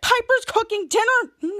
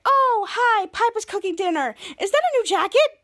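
First: Dismayed reaction. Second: High-pitched put-on cheeriness; imitated over-cheerful greeting; forced happy. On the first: Retold or imitated. Husband reacts to the dinner news. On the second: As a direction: greet them trying hard to sound happy. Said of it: "try to be so happy".

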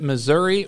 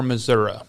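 First: "Missouri" with a final ee sound; Missouri ending in "ee". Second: "Missouri" with a final uh sound; Missouri ending in "uh". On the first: Host quizzing guest on the state's name, "Missouri" ending ee. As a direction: say "Missouri" as mi-ZUR-ee. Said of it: "I've got a pointed question". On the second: Host quizzing guest on the state's name, "Missouri" ending uh. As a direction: say "Missouri" as mi-ZUR-uh. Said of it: "up north it was Missouri". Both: Shown as a demonstration.

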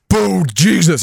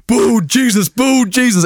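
First: Said in the usual way. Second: Mock chanting. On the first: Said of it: "He's like". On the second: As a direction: chant "Bald Jesus" like a football crowd. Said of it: "And he started chanting".

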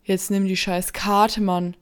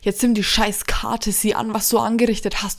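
First: Loud angry yell; shouting. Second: Loud, raised angry yell; shouting. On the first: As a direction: yell at him to take it. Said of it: "schrie Markus ihn an". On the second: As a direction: scream at him in panic. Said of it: "schrie André an". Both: Acted.

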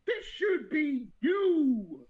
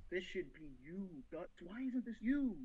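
First: Loud, drawn-out laughing cry; mock anguished howl through laughter; laughing wail. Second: Soft, low, brooding murmur; quiet mock obsession; hushed longing. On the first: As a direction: wail it while cracking up. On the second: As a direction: mutter it like a lovesick schemer. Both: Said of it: "Griffith is just thinking".

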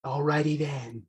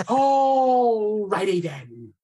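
First: Ace Ventura. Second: High, loud, very slow "Alrighty then"; Ace Ventura catchphrase. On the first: Imitating Ace Ventura for the host on Zoom. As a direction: stretch out the catchphrase like Ace Ventura. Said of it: "greatest celebrity impression is the Ace Ventura". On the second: Big Ace Ventura impression for the laughing host. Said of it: "celebrity impression is the Ace Ventura". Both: Retold or imitated.

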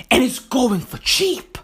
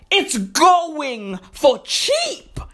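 First: Said in the usual way. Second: Very slow, higher-pitched emphatic repeat; drawn-out emphasis. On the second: Real, not acted. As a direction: stretch out GOING and CHEAP for emphasis.

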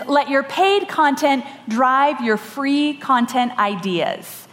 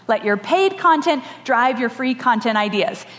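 First: The lesson read slowly and deliberately, "content ideas" drawn out slow; slow statement. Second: Said in the usual way. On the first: Shown as a demonstration. Speaker announcing the first lesson to the audience, slow and deliberate. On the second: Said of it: "The first lesson is let your paid content drive your free".

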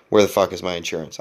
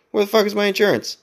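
First: Said in the usual way. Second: Much higher, panicked cry with "fuck" pushed hardest; mounting panic while searching the car; frantic retold yell. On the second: Frantic search for insurance card.

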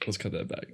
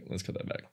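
First: Said in the usual way. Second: "Let's cut that back" whispered, much softer and unvoiced; whispering. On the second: Real, not acted. Repeats the edit cue whispered.

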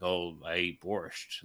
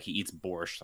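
First: Slow, lightly mocking drawl of a cliché. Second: Said in the usual way. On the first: Mocking the movie's hero, slow and lightly hammed-up. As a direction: draw it out like a cartoon Russian.

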